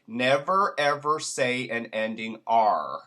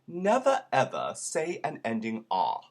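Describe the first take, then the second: First: It is said in an American accent. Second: It is said in a British accent. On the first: The speaker calls it wrong. "I'm going to do it American first" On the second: The speaker calls it right. "leave the R's off, I will start to sound British"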